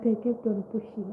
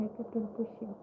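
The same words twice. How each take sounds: First: Said in the usual way. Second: Whispered, much softer; fading whisper. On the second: Real, not acted. YouTuber recalling her persistence, trailing into a whisper. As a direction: let it fade to a whisper.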